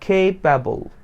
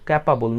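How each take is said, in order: First: The first vowel is an 'ay' glide. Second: The first vowel is a flat 'a' sound. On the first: The speaker calls it right. "It's কেপাবল" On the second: The speaker calls it wrong. "ভুল আমরা যেটা করি"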